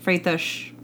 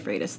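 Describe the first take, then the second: First: The final sound is a 'sh' sound. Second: The final sound is a plain 's' sound. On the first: This is the Portuguese way of saying it. "the accent's going to be on the S. Shh" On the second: This is how the family says it day to day. "we just say Freitas, though. We don't get crazy with it"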